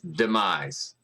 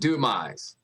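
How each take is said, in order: First: The first syllable sounds like 'dee'. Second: The first syllable sounds like 'doo'. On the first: The speaker calls it right. "It's demise" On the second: The speaker calls it wrong. "not doomise"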